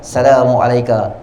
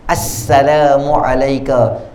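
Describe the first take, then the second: First: The s sound is short and single. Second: The s sound is doubled and held. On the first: The speaker calls it wrong. "Tak boleh baca" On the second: The speaker calls it right. "dengan syaddah dekat sin"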